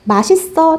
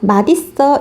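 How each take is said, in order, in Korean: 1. 받침 'ㅅ'이 그대로 'ㅅ' 소리로 넘어갑니다. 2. 받침 'ㅅ'이 'ㄷ' 소리로 바뀌어 넘어갑니다. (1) "당연히 이것도 맞겠죠?" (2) "이것도 맞습니다"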